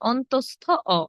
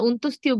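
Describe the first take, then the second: First: The name ends with a 'stha o' sound. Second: The name ends with a 'stiyo' sound. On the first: The speaker calls it right. "এটা হবে অন্তস্থ অ" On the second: The speaker calls it wrong. "আমরা অন্তস্তীয় বলি অনেকে, এটা অন্তস্তীয় হবে না"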